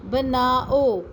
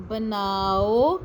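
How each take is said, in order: First: بناؤ said with a falling end; falling tune. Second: بناؤ drawn out slowly, ending on a rise; slow rising tune. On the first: Teacher modelling بناؤ to pupils with a falling tune. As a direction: state بناؤ firmly, pitch dropping. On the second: Teacher repeating بناؤ slowly for pupils, rising at the end. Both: Shown as a demonstration. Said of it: "اب اگلے الفاظ بھی پڑھتے ہیں".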